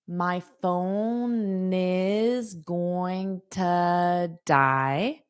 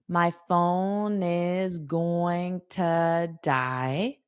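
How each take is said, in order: First: Every word is said separately and in full. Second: The same.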